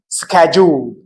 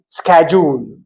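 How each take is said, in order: First: It is said with an American accent. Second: The same.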